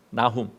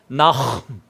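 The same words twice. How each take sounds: First: The h is a light, plain breath. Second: The h is a harsh scrape in the throat.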